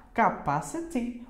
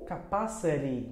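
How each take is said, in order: First: CAPACITY ending in a clear "ti", slowly; slow CAPACITY with a true T; T pronunciation. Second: CAPACITY ending in "ri"; American flapped T. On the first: ("Capacity" devagar, com T claro) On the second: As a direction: tap the T of CAPACITY like a soft R. ("capacity" terminando em "ri", à americana) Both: Shown as a demonstration. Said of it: "No, no inglês americano".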